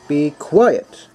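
The word quiet is said with strong emphasis.

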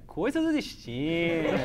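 The name is said with a special stylized intonation. The speaker calls it right. "uma entoação, uma pronúncia toda especial"

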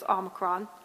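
The word is said the American way. "One is the American way, which is Omicron"

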